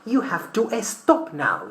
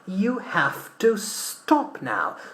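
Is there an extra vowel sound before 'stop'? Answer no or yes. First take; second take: yes; no. First: An extra vowel is added before stop. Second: Stop begins directly with the s sound. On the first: The speaker calls it wrong. "that's wrong" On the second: The speaker calls it right. "we start pronouncing these words with an S"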